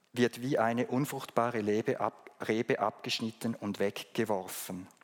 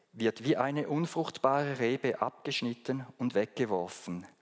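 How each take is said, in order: Both takes have the same delivery.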